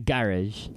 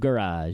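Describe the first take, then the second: First: Garage is said in a British accent. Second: Garage is said in an American accent.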